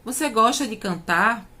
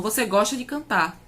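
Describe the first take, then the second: First: "Você gosta de cantar?" with a rising question tune; rising question intonation; asking as a question. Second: "Você gosta de cantar?" said flat with a falling end, as an affirmation; falling statement intonation. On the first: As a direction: ask it, lifting at the end. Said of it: "se eu pergunto". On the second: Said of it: "É diferente da afirmação". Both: Shown as a demonstration.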